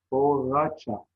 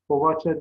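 First: Said in the usual way. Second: "Poğaça" with a v, povaça; v in place of ğ in "Poğaça"; misspelt form. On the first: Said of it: "doğrularını yazalım". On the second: Shown as a demonstration. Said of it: "yanlış yazılmış olan sözcüklerin".

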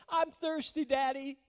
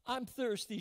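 First: Put-on high, loud child's call to her daddy; little girl calling. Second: Put-on mild child's voice. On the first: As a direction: cry out like a thirsty little girl at night. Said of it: "She called her daddy". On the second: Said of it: "she said".

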